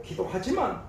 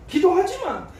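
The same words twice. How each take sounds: First: Said in the usual way. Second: "기도하지만" said higher and louder, falling at the end; "기도하지만" punched, then the voice drops; emphatic realization. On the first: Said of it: "기도하지만 내 뜻이 이루어지는 게 아니라". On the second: Acted. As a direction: hit "기도하지만" like a sudden realization. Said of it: "내 뜻이 이루어지는 게 아니라".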